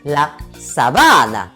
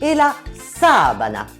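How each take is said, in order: First: The stress is on the second syllable. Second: The stress is on the first syllable. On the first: It means a savanna. "qui veut dire la savane" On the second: It means a bed sheet. "qui veut dire le drap de lit"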